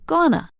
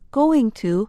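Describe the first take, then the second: First: The words are squeezed into one short reduced word. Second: Both words are said fully and separately.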